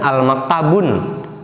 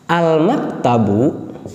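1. Kata ini diakhiri dengan bunyi n tambahan. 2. Kata ini diakhiri dengan vokal u biasa.

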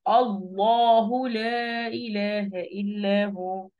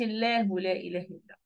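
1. اللام في الله ثقيلة ومفخمة. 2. اللام في الله خفيفة ورقيقة. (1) "اقول كده" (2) "لما اقولش"

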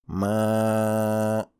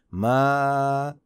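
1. La sílaba se pronuncia con sonido nasal. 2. La sílaba se pronuncia sin sonido nasal. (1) "sería un error pronunciar así ma con sonido nasal" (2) "el sonido correcto sería así ma, sonido no nasal"

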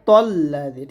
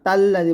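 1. প্রথম অক্ষরটি ভারী ও মোটা। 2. প্রথম অক্ষরটি হালকা ও পাতলা। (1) "মোটা হবে যে মোটা" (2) "তাল্লাদি বলা যাবে না"

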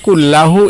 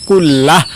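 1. শব্দটি শেষে একটি 'u' স্বরধ্বনি দিয়ে শেষ হয়। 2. শব্দটি 'h' ধ্বনি দিয়ে শেষ হয়। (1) "কুল্লাহ অথবা কুল্লাহু, এভাবে পড়বেন" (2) "লাস্টে হা উচ্চারণ, কুল্লাহ অথবা কুল্লাহু"

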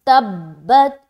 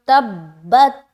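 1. दोहरे b को मज़बूती से पकड़कर और दबाकर बोला जाता है। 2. दोहरे b को मज़बूती से पकड़कर और दबाकर बोला जाता है।

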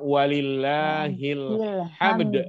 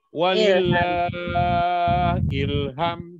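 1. Frasa itu dipisah sehingga berakhir di 'hamd'. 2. Frasa itu dipisah sehingga berakhir di 'ilham'. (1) "Yang benar walillahil hamd" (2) "yang baca udah bagus-bagus lagunya bacanya salah"

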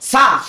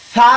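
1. প্রথম ব্যঞ্জনটি একটি সাধারণ s ধ্বনি। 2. জিভের ডগা উপরের সামনের দাঁত স্পর্শ করে। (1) "না বুঝে পড়ার কারণে এই পাতলা হরফগুলো আমরা কিভাবে উচ্চারণ করি" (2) "জিব্বার আগা খালি সামনের উপরের দাঁতের আগার সঙ্গে লাগাই দিতে হবে"

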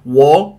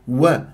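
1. صوت الواو مفخم وثقيل. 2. صوت الواو مرقق وخفيف. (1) "فأنت تفخم لي الواو" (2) "لا"

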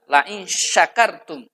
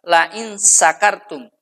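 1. Kata itu diawali dengan bunyi 'sh'. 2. Kata itu diawali dengan bunyi 's'. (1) "menggunakan shin besar" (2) "menggunakan sin kecil"

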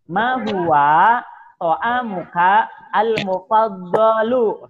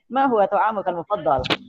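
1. Kata terakhir berakhir dengan vokal tambahan. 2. Kata terakhir berakhir dengan konsonan tanpa vokal.

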